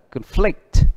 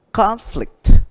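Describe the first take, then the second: First: ConFLICT, second syllable stressed; verb stress on conflict. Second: CONflict, first syllable stressed; noun stress on conflict. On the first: Teacher contrasting noun and verb, conflict with second-syllable stress. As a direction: punch the FLICT in conflict. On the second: Teacher contrasting noun and verb, conflict with first-syllable stress. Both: Shown as a demonstration. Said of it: "Cứ này cũng vậy".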